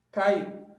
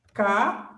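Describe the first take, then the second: First: Said in the usual way. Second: "Caiu" broken into "Ca" and "iu" with a long pause; teacher splitting "Caiu": "Ca... iu"; separated syllables. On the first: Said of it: "É assim, caiu". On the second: Shown as a demonstration. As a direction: sound out "Caiu" in two detached syllables. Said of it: "Vamos separar, então, essas sílabas".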